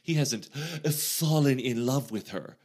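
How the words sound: It is said with a mocking, ironic tone. The claim is doubted and not meant literally.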